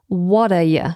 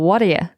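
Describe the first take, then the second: First: The T is a clear, full T sound. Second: The T is flapped, almost like a D.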